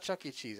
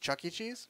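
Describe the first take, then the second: First: The name is said with an ordinary falling tune. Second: The name is said with a rising, upswinging tune. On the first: This is the old way of saying the name. "it's not Chuck E. Cheese anymore" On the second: This is the new way of saying the name. "You just pronounce it on like the upswing"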